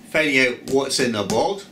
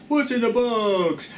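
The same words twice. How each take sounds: First: Said in the usual way. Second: Slow, higher, hammed-up movie line; dramatic movie quote. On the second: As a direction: drag it out like a thriller. Quoting film line.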